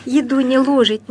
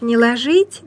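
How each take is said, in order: First: «ложить» stressed on ЛО: ЛОжить; stress on first syllable. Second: «ложить» as ложИть, stress on ЖИТЬ; stress on last syllable. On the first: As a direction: recite it with a clear stressed O in «ложить». («ложить» с ударением на первый слог) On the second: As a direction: recite it, moving the stress to the end of «ложить». («ложить» с ударением на последний слог) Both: Shown as a demonstration. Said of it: "я такую запоминалку нашла".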